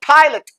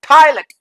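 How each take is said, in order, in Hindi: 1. बिना ज़ोर वाला स्वर कमज़ोर और अस्पष्ट हो जाता है। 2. बिना ज़ोर वाला स्वर कमज़ोर और अस्पष्ट हो जाता है।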